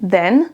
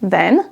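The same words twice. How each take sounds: No difference in how they are said.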